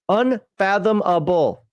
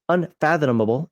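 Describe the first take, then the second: First: The word is said very slowly and carefully. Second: The word is said at normal reading speed. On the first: The speaker calls it right. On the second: The speaker calls it wrong.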